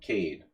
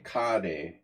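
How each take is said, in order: First: It is pronounced with an American accent. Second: It is pronounced with a Hungarian accent. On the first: "if I'm American, I say Cade" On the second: "If I'm Hungarian, I say Kade"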